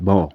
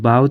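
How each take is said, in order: First: The vowel rhymes with 'go'. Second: The vowel rhymes with 'cow'. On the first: A weapon for shooting arrows. "बौ क्या होता है? धनक" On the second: To bend forward. "बाव का मतलब होता है झुकना"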